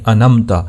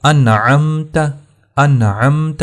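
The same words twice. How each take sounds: First: انمتا, ain skipped, zabar on noon; انعمت said as انمتا; wrong way. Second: انعمت with clear sakin noon and throat ain; careful انعمت; correct way. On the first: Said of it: "یہ بہت بڑی غلطی ہے". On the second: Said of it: "یہ ہوگا انعمت". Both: Shown as a demonstration.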